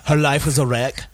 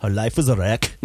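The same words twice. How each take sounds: First: Laughs through the punchline; giggling as he tells the joke; laughing. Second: A lightly done Arnold voice, slightly lower; mock Arnold, a touch of Austrian; Arnold impression. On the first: Acted. Friend tells a dark joke to the group, laughing. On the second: Friend redoes the joke in a light Arnold voice. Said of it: "it was like an Arnold".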